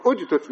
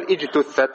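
First: "اجتث" begun with u, "ujtuth"; damma on the hamza. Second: "اجتثت" begun with i, "ijtuththat"; wrong kasra start. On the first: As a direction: open "اجتث" on a short u sound. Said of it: "إذا بدأت بها تقول". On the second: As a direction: open "اجتثت" on a short i, as the counter-example. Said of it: "لا تقول". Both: Shown as a demonstration.

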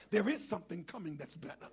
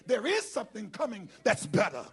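First: Said in the usual way. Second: "There is something coming that's better" punched out loud, word by word; said with emphasis. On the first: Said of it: "you're not saying it with emphasis". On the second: Shown as a demonstration. Preacher has congregation say "There is something coming that's better", loud and emphatic. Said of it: "say it with emphasis".

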